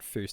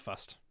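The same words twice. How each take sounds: First: The vowel does not rhyme with dust. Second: The vowel rhymes with dust. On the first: The speaker calls it wrong. "It's not Fust" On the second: The speaker calls it right. "Fust is pronounced like dust"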